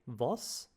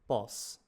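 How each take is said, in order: First: The word begins with a V sound. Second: The word begins with a B sound. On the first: "So it's like a V" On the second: "like a B sound"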